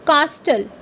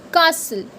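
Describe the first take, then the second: First: Castle with the t sounded; the mistaken castle; wrong way. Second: Castle with a silent t; the correct castle. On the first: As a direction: say castle as cas-tul. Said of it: "people say it as". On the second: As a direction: say castle as cas-sul. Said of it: "it's castle". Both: Shown as a demonstration.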